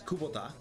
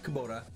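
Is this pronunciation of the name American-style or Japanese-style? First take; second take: Japanese-style; American-style. First: The name is said the Japanese way. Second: The name is said the American way. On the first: The speaker calls it right. "It's Kubota" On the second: The speaker calls it wrong. "you guys pronounce it incorrectly. It's not Kubota"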